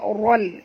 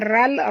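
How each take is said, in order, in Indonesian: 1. Bunyi r dibaca tebal dan berat. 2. Bunyi r dibaca tipis dan ringan. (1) "kena baca ral" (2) "Kalau baca ral, ra tu tipis"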